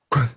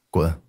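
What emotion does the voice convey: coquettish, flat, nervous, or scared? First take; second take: scared; flat. First: It is said in a frightened way. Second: It is said flatly, without emotion. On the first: "害怕。" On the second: "你先说普通的滚，随便来，平淡一点。"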